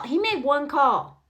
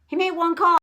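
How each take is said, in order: First: He made one call said slowly, each word weighed; slow emphasis. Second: He made one call said louder, higher and pushed; louder repeat. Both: Real, not acted.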